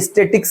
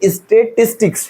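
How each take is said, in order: First: The middle 'tis' syllable is dropped. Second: The middle 'tis' syllable is included. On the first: The speaker calls it wrong. "ये स्टेटिक्स नहीं है" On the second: The speaker calls it right. "ये स्टेटिस्टिक्स है"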